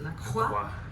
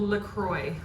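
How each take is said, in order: First: The name is said with a French pronunciation. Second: The name is said with an English pronunciation. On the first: "if you're French, you pronounce it La Croix" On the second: "It's called LaCroix"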